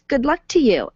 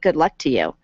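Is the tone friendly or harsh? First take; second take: friendly; harsh. First: It is said in a warm, friendly tone. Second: It is said in a harsh, curt tone. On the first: The writer means it kindly. "what you're giving" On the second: The reader hears it as unkind. "far more harsh"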